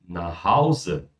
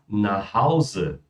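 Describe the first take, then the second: No difference in how they are said.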